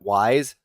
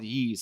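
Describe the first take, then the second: First: The name is said like the word 'wise'. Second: The name is said like the word 'yeast'. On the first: The speaker calls it wrong. "I had no idea how to pronounce it, so I was like calling it Wise" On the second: The speaker calls it right. "somebody corrected me one day. They're like, "It's called Yeast.""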